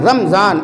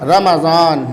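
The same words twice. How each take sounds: First: The m is followed directly by z, no vowel. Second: The m is followed by a short a vowel. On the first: The speaker calls it wrong. "इस तरह से बोलते हैं, जबकि ऐसा नहीं है" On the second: The speaker calls it right. "मीम ज़बर मा, रमा, ... ये इस तरह से है"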